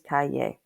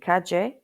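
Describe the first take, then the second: First: The double L sounds like an English y. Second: The double L sounds like the j in judge. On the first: "a double L usually sounds like an English Y" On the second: "can be said like the J in judge"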